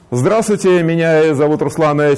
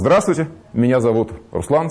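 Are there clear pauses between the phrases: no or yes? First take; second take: no; yes. First: The phrases run on without deliberate pauses. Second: Deliberate pauses separate the phrases.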